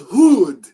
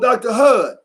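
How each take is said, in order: First: The name is said with a long vowel. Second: The name is said with a short vowel. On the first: The speaker calls it right. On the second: The speaker calls it wrong. "No, it's not Hud. That's Western"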